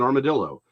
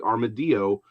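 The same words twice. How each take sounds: First: The double L is said as an L sound. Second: The double L is said as a Y sound. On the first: This is how it is said locally. "but we call it an" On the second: This is how it would be said in Spanish. "It's a Spanish word, it should be"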